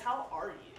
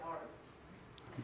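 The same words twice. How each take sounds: First: Said in the usual way. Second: "how are you?" whispered, slow and much softer; sincere hushed question. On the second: Shown as a demonstration. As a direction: ask "how are you?" again, truly meaning it, in a whisper. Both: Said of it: "No, like, legit".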